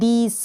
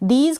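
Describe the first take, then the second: First: The word ends with an s sound. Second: The word ends with a z sound. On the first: The speaker calls it wrong. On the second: The speaker calls it right.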